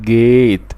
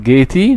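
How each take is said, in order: First: جيت ending on t, the e left silent; slow careful correct form. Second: جيتي with the final e sounded as ee; pronouncing the magic e by mistake; wrong silent e voiced. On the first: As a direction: say جيت slowly, no vowel after the t. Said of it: "نو، بقول". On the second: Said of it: "ما بقولش لا اقول". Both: Shown as a demonstration.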